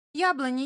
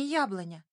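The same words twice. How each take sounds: First: High, loud call to the tree. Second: Said in the usual way. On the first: A narrator's reading. Fox calling out to the apple tree, eager.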